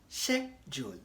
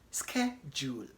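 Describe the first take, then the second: First: The word is said with a British pronunciation. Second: The word is said with an American pronunciation. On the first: "the typical British will pronounce the word as schedule. That is British English" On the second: "In American English, they pronounce it as schedule"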